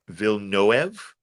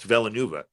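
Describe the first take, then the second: First: The name is said with French sounds. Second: The name is said with Spanish-style sounds. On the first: The speaker calls it right. "I've got the French French pronunciation here" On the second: The speaker calls it wrong. "I always thought it was Dennis Villeneuve"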